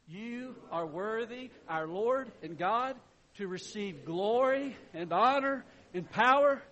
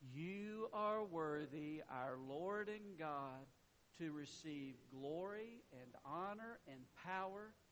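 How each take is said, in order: First: It is said more loudly. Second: It is said quietly, in a low tone.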